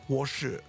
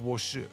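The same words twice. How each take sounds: First: The second syllable starts with a 'sh' sound. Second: The second syllable starts with an 's' sound. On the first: This is the usual way of saying it. "instead of saying 我是" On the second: It is said this way to sound cute. "they take the, the she sound and make a s sound to be cute"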